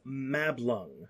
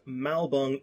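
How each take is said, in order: First: The L sound comes after the B sound. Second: The L sound comes before the B sound. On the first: The speaker calls it right. "it's Mablung" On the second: The speaker calls it wrong. "It's not actually pronounced Malbung"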